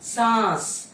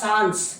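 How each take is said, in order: First: The vowel is nasalized with no n. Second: A full n sound follows the vowel. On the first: The speaker calls it right. "இது வந்து சாஸ்" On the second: The speaker calls it wrong. "Not சான்ஸ்"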